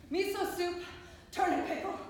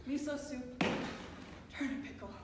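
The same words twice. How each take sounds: First: Higher, more forceful listing; raised, insistent voice on a repeated menu; forceful repetition. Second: Said in the usual way. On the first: Acted. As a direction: hit "Miso soup" and "Turnip pickle" hard and high. Food list repeated with rising force.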